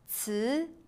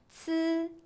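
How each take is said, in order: First: The pitch rises from mid to high. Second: The pitch stays high and level.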